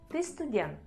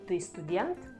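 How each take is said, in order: First: It is said with statement intonation. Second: It is said with question intonation. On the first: It states that the listener is a student. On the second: It asks whether the listener is a student.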